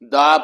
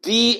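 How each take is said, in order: First: The vowel is a short, weak 'uh'. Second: The vowel is a long 'ee'. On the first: The next word starts with a consonant sound. "वहां मैंने द बोला" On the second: The next word starts with a vowel sound. "यहां मैंने दी बोला"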